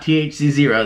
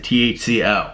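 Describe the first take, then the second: First: The final character is said as zero. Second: The final character is said as letter O. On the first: The speaker calls it wrong. "Not T H C zero" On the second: The speaker calls it right. "that is a T H C O"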